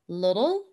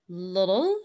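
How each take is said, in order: First: It is said with an American accent. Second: It is said with an American accent.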